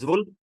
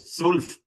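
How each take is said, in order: First: The word begins with a z sound. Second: The word begins with an s sound. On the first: The speaker calls it wrong. "ज्वुल्फ नहीं, आपने जेड की साउंड कहीं भी नहीं निकालनी" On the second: The speaker calls it right. "इसको स्टार्ट करना है एस की साउंड से"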